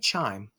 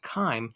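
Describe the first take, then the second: First: The word begins with a 'ch' sound. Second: The word begins with a 'k' sound. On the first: The speaker calls it wrong. "don't say chyme" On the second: The speaker calls it right. "it's that chyme"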